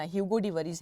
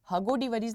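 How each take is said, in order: First: ह्यूगो with a clear 'hyu' glide; correct pronunciation. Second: हगो said with a plain short 'ha', no 'yu' glide; the mispronounced हगो, said as ha-go; wrong pronunciation. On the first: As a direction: say ह्यूगो as hyoo-go, not ha-go. (सही उच्चारण ह्यूगो) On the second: (गलत उच्चारण हगो) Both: Shown as a demonstration. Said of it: "नहीं पढ़ना".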